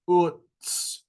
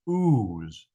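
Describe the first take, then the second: First: The word ends in a ts sound. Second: The word ends in a z sound. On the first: The speaker calls it right. "but Utz" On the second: The speaker calls it wrong. "technically should not be pronounced ooze"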